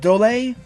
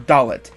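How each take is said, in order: First: The name ends in a French-style 'ay' sound. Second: The name ends with a sounded 'et'.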